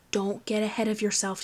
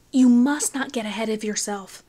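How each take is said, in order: First: Said in the usual way. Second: The warning repeated louder and firmer; louder admonishment. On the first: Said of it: "he warned". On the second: A narrator's reading. Wayne admonishing Finn, louder firm warning. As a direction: press the warning harder. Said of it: "admonished Finn".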